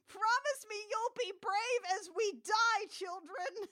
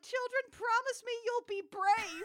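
First: High, mock-tragic last words; doomed farewell. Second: High, solemn mock farewell; a grave, hammed-up goodbye to the kids; solemn mother voice. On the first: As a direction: ham up a farewell before dying. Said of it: "incinerator scene in Toy Story three". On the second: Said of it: "And Crystal's like".

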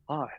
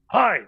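First: Small, subdued "Hi"; imitated meek reply. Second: High, loud "Hi"; imitated stranger's greeting. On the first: Sleepless artist replies to the older stranger, subdued hello. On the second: Older gentleman greets the staring passer-by, high punchy hello.

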